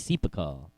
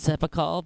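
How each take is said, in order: First: The first vowel is a long 'ee' sound. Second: The first vowel is a short 'e' sound. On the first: "the long vowel sound of E is E, so it could be Sepacol" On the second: "I've always said Sepacol"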